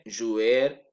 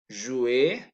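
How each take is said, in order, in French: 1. Le R final se prononce. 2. Le R final est muet. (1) "je ne dis pas"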